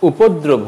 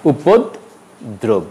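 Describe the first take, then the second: First: উপদ্রব run together without a break; joined-up উপদ্রব; wrong pronunciation. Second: উপদ্রব slowly split as "upod... drob"; slow two-part উপদ্রব; correct pronunciation. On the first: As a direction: say "upoddrob" in one piece for উপদ্রব. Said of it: "উপদ্রব হবে না". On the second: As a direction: pause inside উপদ্রব after "upod". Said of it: "হবে". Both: Shown as a demonstration.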